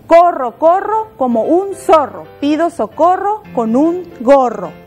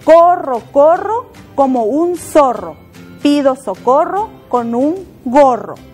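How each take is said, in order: First: It is said a little faster. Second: It is said at a normal pace.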